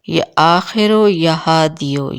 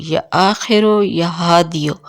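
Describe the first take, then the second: No difference in how they are said.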